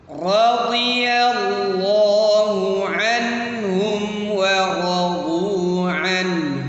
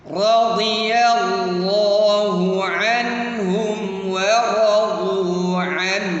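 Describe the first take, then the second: No difference in how they are said.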